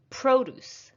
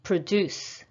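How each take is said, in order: First: Produce with a high, long PRO; stress on first syllable. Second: Produce with a weak pruh, stressed DUCE; stress on second syllable. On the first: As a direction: punch the start of Produce, as a noun. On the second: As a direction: lean on the end of Produce, as a verb. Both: Shown as a demonstration. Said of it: "practice shifting the stress".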